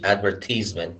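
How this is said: It is said with a British pronunciation. "which is British advertisement"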